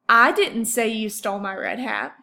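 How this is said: The word I carries the main stress. "let's for a second emphasize the word I"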